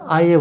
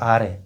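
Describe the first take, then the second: First: The word is said with no r sound. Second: The word is said with a strong r sound. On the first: "र नहीं बोलता" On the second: "र का ज़्यादा जोर से बोलता है"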